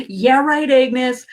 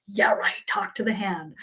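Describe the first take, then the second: First: Higher, mocking "yeah, right" at the angels; scoffing disbelief. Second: "yeah, right" dropped much softer, dissolving into laughter; fading mock dismissal. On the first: Past self scoffing at her angels, mock disbelief. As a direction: brush it off with a scoff. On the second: Past self waving off her angels, softly laughing. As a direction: let the brush-off crumble into a giggle. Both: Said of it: "I would have laughed".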